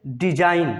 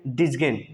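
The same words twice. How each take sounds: First: डिजाइन, ending in a plain "-ain", g left silent. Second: डिजगेन with a hard g before the n; g wrongly sounded. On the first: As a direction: say डिजाइन with no g sound before the n. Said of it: "जी हमेशा silent होता है". (डिजाइन में जी silent) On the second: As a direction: mispronounce it as डिजगेन, ending in "-gen". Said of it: "ऐसा आपको नहीं बोलना है". (डिजगेन, जी का गलत उच्चारण) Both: Shown as a demonstration.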